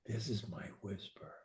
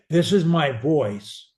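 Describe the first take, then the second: First: Breathy whisper far softer. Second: Said in the usual way. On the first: Shown as a demonstration. Coach demonstrating his whisper to the student. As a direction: drop to a whisper.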